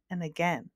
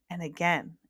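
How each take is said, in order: Both takes have the same delivery.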